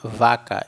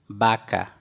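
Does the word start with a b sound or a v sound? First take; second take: v sound; b sound. First: The word starts with a v sound. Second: The word starts with a b sound. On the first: The speaker calls it wrong. "nós não vamos ler vaca" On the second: The speaker calls it right. "e sim baca. porque o V tem som de B"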